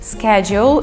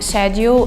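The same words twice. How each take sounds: First: It is pronounced the American way. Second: It is pronounced the British way. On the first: "schedule is the American way of saying it" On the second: "schedule the British one"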